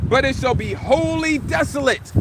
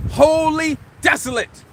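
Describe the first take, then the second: First: Said in the usual way. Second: Wholly said slowly and weighed; stress on Wholly. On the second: Shown as a demonstration. Preacher repeating the verse's ending for emphasis, slow stress.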